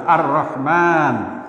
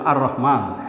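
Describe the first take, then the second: First: আর রহমান read slowly with the র held doubled, "ar-rahman"; doubled r demo. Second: Said in the usual way. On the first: Shown as a demonstration. Teacher showing students the tashdid on আর রহমান, slow and deliberate. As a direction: stretch out আর রহমান, leaning into the doubled র. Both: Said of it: "একটা তাজদিদ দিয়ে পড়তে হবে".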